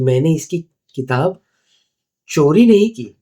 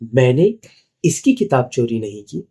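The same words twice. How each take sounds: First: The stress falls on the word चोरी. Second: The stress falls on the word इसकी. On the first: The book was borrowed or bought, not stolen. "मतलब मैंने शायद इससे भाड़े पे ली है या बोरो की है या खरीदी है" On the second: A book was stolen, but not this person's. "मतलब मैंने किताब तो चोरी की लेकिन इसकी नहीं की है।"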